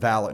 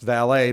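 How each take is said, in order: First: It is given its horse-racing pronunciation. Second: It is given its standard pronunciation. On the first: This is how people in horse racing say it. "we pronounce it valet in horse racing" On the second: This is the generally correct pronunciation. "it should be pronounced valet"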